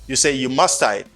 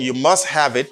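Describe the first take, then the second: First: Must have is reduced to one word, musta. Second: Must have is said fully as two words. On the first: It is the informal, faster way to say it. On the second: It is the formal way to say it. "Instead of saying you must have it"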